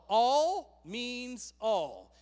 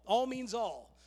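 First: "All means all" very slow, each "all" leaned on and drawn out; emphatic all. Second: Said in the usual way. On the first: Shown as a demonstration. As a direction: hammer "all" slowly, word by word. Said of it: "Everyone say all". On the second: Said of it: "It means all".

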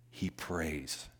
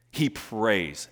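First: Hushed. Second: Said in the usual way. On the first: Acted. Repeated refrain, dropped low.

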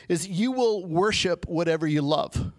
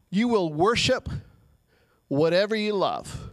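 First: Said in the usual way. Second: Emphatic restatement, slowed with a pause; stress on worship. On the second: Shown as a demonstration. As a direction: land each word apart, "worship" held before "whatever you love". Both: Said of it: "repeats the line".

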